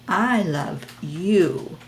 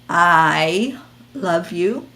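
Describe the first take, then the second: First: The stress is on "you". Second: The stress is on "I".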